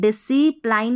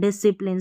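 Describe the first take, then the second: First: The last syllable rhymes with 'line'. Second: The last syllable has a short 'i' sound. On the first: The speaker calls it wrong. "डिसिप्लाइन नहीं पढ़ना" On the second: The speaker calls it right. "इसको पढ़ेंगे"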